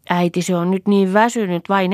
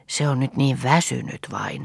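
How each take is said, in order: First: Put-on higher, louder little-girl voice; high child voice echoing a grown-up; child repeating an adult. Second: Said in the usual way. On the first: A narrator's reading. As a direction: pass it on to mother as a small child. Child passes midwife's words to mother.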